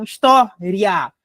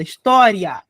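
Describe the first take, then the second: First: História slowed, broken as his-TÓ, then RIA; história in slow, divided chunks; split vowel glide. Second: História with a strong TÓ, then a falling, weakened ria; História as one word, fading on the final glide; weakened ending. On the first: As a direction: separate the final RIA of história from the stressed TÓ. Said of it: "um encontrinho aqui vocálico de uma semivogal". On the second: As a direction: hit TÓ and let the end of História slacken. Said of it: "o som ele dá uma fraquejada". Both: Shown as a demonstration.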